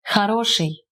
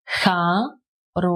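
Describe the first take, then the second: First: Said in the usual way. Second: "ха-ро-ший" drawn out, gaps between syllables. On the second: Shown as a demonstration. Teacher repeating for learners, syllable by syllable. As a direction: sound out "ха", "ро", "ший" one at a time.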